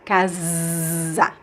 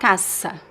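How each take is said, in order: First: The middle consonant is a voiced buzzing Z. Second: The middle consonant is a voiceless hissing S. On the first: The speaker calls it right. "it becomes Z" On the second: The speaker calls it wrong. "It's not casa"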